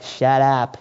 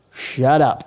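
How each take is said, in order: First: Put-on low, soft Boston-accented aside. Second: Said in the usual way. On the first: Preacher paraphrasing Paul to the Ephesian church, Boston accent. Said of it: "in a Boston accent".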